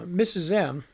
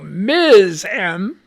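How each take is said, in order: First: The title is said as two syllables, missus. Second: The title is said as one syllable, miz. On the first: The speaker calls it wrong. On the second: The speaker calls it right.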